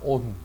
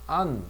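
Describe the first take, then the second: First: The vowel is a rounded 'oh' sound. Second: The vowel is an open 'ah' sound. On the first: The speaker calls it wrong. "근데 우리는 on 하잖아" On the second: The speaker calls it right. "안이라고 발음해야 돼"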